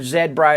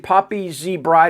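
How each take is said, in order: First: The letter is said 'zed', Canadian style. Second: The letter is said 'zee', American style.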